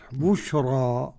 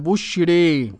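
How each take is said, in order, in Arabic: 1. الحركة الأخيرة a مفتوحة تماماً. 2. الحركة الأخيرة مائلة تماماً نحو e. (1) "والباقون بالفتح" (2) "وبالإمالة الكبرى"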